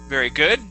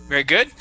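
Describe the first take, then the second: No difference in how they are said.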